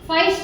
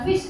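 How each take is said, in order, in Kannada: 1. ಈ ಸ್ವರ 'eye' ತರ ಕೇಳಿಸುತ್ತೆ. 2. ಈ ಸ್ವರ ಚಿಕ್ಕ 'ih' ತರ ಕೇಳಿಸುತ್ತೆ. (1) "ಫೈಸ್ಟ್ ಅಂತೀವೇನು" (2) "ಫಿಸ್ಟ್ ಅಂತ ಹೇಳ್ತೀವೇನು"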